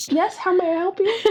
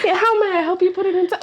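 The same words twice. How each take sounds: First: Bright polite shop clerk greeting; chirpy help-desk hello; customer service voice. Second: Polite clerk voice, laughing through it; mock help-desk greeting breaking into laughter; customer service voice. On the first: Pretend. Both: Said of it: "My customer service voice".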